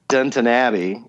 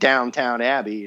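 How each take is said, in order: First: The first word is said as Downton. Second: The first word is said as Downtown. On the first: The speaker calls it right. "as I was told to pronounce it" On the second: The speaker calls it wrong. "keep saying Downtown Abbey"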